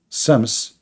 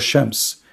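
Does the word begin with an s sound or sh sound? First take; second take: s; sh. First: The word begins with an s sound. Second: The word begins with an sh sound. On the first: It is the form used in one territory. "sometimes the letter S can pronounce as Ish" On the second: It is the form used in another territory. "Shams means sun"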